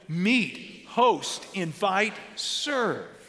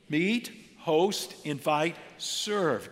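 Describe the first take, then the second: First: The words are said loudly with strong conviction. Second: The words are said in a plain, ordinary voice. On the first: "Now say it like you mean it" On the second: "Say it with me"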